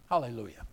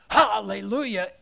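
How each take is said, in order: First: It is said flatly without energy. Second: It is said with lively energy.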